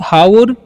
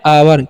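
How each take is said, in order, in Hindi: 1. शब्द की शुरुआत में साफ़ 'h' की ध्वनि है। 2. शब्द स्वर से शुरू होता है, इसमें 'h' नहीं है। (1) "बहुत सारे स्टूडेंट्स हाउर या हावर भी पढ़ सकते हैं, जो कि रॉन्ग है" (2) "सही तरीके से कैसे पढ़ना है? इसे आपको पढ़ना है आवर"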